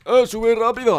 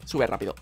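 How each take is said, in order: First: Louder, higher shout to a teammate; urgent call. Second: Said in the usual way. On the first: Real, not acted. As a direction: call out to hurry up. Urges teammate to climb.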